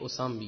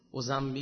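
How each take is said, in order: First: The middle consonant is an s sound. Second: The middle consonant is a z sound. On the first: The speaker calls it right. "اینجوری بگیم بهتر" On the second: The speaker calls it wrong. "اسه زد نیست"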